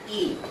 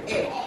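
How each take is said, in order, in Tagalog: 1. Mahaba at mataas ang patinig, gaya ng 'ee'. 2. Maikli at bukas ang patinig, gaya ng 'eh'. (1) "Pag long E, E" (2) "short E, na ang tunog lang ay E"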